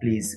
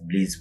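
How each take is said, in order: First: The word begins with a p sound. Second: The word begins with a b sound.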